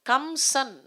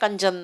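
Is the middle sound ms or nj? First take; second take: ms; nj. First: The middle sound is m followed by s. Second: The middle sound is n followed by j. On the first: This is the original borrowed form. "கம்சன்கிறது" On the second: This is the form adapted to Tamil. "கஞ்சன்னு மாறும்"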